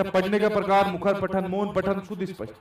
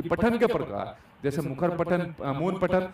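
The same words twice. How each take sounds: First: पढ़ने का प्रकार through शुद्ध स्पष्ट on one level tune; reading without intonation. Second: पठन के प्रकार with a rise and fall; reading with intonation. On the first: Teacher shows students how not to read, मुखर पठन in a monotone. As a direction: run मुखर पठन, मौन पठन together on an unvarying pitch. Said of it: "ऐसे नहीं पढ़ सकते". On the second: Teacher shows students ups and downs in reading, मुखर पठन with intonation. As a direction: let the tune move through मुखर पठन and मौन पठन. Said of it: "भाई उतार चढ़ाव भी करना पड़ेगा". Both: Shown as a demonstration.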